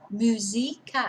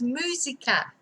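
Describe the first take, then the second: First: The stress is on the second syllable. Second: The stress is on the first syllable. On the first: The speaker calls it wrong. "otherwise it would be musica" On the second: The speaker calls it right. "we do have an accent on this one, on the U"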